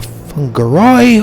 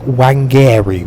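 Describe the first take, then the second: First: The name is said with Maori pronunciation. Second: The name is said with an anglicized pronunciation. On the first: The speaker calls it right. "getting my head around Maori pronunciations of things" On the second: The speaker calls it wrong. "Wangari was my first ever attempt at trying to read that"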